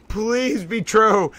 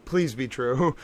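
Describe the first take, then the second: First: Slow "please be true" through a laugh, falling on "true". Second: Much softer, lower "please be true", almost to herself; hushed plea. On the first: Streamer hoping the rumor is real, slow laughing plea. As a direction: giggle out the wish, drawn out. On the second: Streamer hoping the rumor is real, hushed lower plea. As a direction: pray it quietly under the breath. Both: Real, not acted. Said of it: "Oh, this is incredible!".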